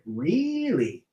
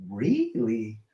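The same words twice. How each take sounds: First: A hammed-up rubber-faced Jim Carrey really. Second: Said in the usual way. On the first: Telling chat about the man, hammy Jim Carrey imitation. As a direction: stretch it out like a goofy Jim Carrey. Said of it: "I try to do a Jim Carrey". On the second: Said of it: "So I went".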